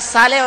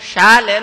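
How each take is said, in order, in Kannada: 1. ಈ ಪದ ಸಾಮಾನ್ಯ 's' ಶಬ್ದದಿಂದ ಆರಂಭವಾಗುತ್ತದೆ. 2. ಈ ಪದ 'sh' ಶಬ್ದದಿಂದ ಆರಂಭವಾಗುತ್ತದೆ. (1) "ನಮ್ಮ ಹೇಳುವ ಧಾಟಿ" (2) "ಶಾಲೆ ಅಂತ ಆಗಬೇಕಲ್ಲ"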